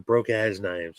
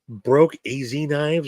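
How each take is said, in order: First: The middle part is said as one word. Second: The middle part is spelled out as two letters. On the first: "or broke ass knives" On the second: "do you say broke A Z knives"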